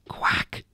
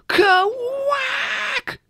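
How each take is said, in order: First: The word is whispered very quietly. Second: The word is shouted loudly.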